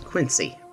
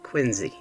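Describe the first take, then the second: First: Quincy is said the way Illinois locals say it. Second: Quincy is said the non-Illinois way. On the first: This is how locals in Illinois say the name. The speaker calls it right. "for those of us in Illinois, that word is Quincy" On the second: This is how the name is said in the game. The speaker calls it wrong. "not Quincy"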